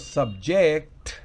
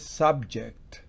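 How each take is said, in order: First: The stress is on the second syllable. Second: The stress is on the first syllable. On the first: It is the verb meaning to subject or hold. "es el verbo sujetar" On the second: It is the noun meaning topic. "ahí significa tema"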